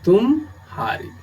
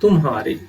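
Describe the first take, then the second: First: It is said with a pause after tum. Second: It is said quickly with no internal pause. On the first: It means you were defeated. "इसमें विराम या अवसान की स्थिति उत्पन्न करेंगे" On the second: It means yours. "म और ह पर शीघ्र संक्रमण या गमन होता है"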